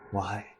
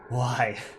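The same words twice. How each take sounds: First: It is said quietly and hesitantly. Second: It is said loudly and forcefully.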